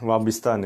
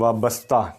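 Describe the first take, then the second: First: The second vowel is an 'i' sound. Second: The second vowel is an 'a' sound. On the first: The speaker calls it wrong. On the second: The speaker calls it right.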